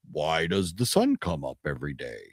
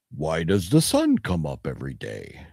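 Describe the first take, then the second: First: Low, softer musing mentor line; hint of a wise old mentor; lightly voiced Connery. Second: A hint of Connery, low and musing; lightly voiced Connery. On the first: Fan repeats the cheesy movie line, softly and low. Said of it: "he asks him". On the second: Fan quotes the Highlander mentor in a light, low mock-wise tone. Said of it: "I think of him going".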